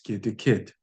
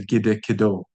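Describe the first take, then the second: First: The final vowel is dropped. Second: The final vowel is pronounced. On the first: The speaker calls it right. "It's gidikid. Short vowel deletion" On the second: The speaker calls it wrong. "We don't say gidikido"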